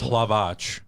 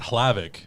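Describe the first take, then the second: First: The name is said the Czech way. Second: The name is said the anglicized way. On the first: The speaker calls it right. "it's Hlavac because it's Czech" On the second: The speaker calls it wrong. "not Hlavic"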